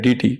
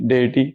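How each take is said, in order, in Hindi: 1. पहला अक्षर 'dee' जैसा सुनाई देता है। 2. पहला अक्षर 'day' जैसा सुनाई देता है। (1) "डीटी नाम का कोई प्रोनाउंसिएशन इंग्लिश भाषा में है ही नहीं" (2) "उसको कहा जाता है डेटी"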